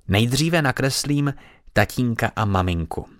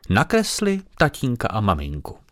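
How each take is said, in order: First: Said importantly. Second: Lightly voiced fat lady echoing the child. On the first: Acted. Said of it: "řekla důležitě". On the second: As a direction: echo the girl as the visiting lady. Paní opakuje Aniččina slova. (lehce naznačený hlas tlusté paní)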